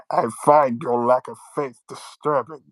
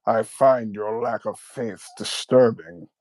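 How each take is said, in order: First: Muffled through hands over face. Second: Slow, low, menacing Vader line; Darth Vader voice. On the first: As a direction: cup hands over mouth like a mask. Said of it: "you have your hands over your face for you, for the mask". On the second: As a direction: intone it like Vader. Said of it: "a good Darth Vader voice". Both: Retold or imitated.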